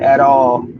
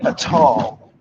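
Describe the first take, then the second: First: It is said in a plain American way. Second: It is said in a Trinidadian Caribbean way. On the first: "instead of saying at all" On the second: "she would say at all"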